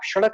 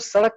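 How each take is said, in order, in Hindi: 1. यह शब्द श की ध्वनि से शुरू होता है। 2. यह शब्द सादे स की ध्वनि से शुरू होता है। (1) "आप सड़क नहीं बोलेंगे" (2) "अगर उसमें स है, सड़क है तो आपको सड़क कहना है"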